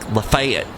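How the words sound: The name is said with Southern American pronunciation. "they call it, like, Lafayette"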